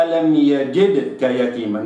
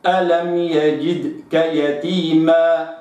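First: يجدك read with the kasra clipped; ألم يجدك the wrong way. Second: يجدك with the kasra kept full, slow; correct reading. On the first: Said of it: "لا أقرأها". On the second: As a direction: read يجدك carefully and right. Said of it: "وإنما". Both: Shown as a demonstration.

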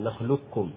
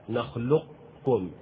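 First: نخلقكم with the qaf fully merged into the kaf, a double kk; full assimilation. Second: نخلقكم slowly, with a trace of the qaf's elevation kept before the kaf; incomplete assimilation. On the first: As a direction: say نخلقكم as nakhlukkum, full idgham. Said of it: "إدغام كامل". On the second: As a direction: say نخلقكم slowly with partial idgham, keeping the qaf's emphasis. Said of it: "الناقص يعني". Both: Shown as a demonstration.

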